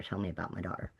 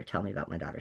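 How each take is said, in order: First: Softer still, low, firm repeat; quiet insistence. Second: Softer, low, firm repeated demand; quiet insistence. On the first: Mother repeating her demand to the hospital, even quieter. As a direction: say it again under the breath, insisting. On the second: Mother on the phone demanding news of her hurt daughter, quiet and firm. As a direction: press them quietly for news of her child. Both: Retold or imitated.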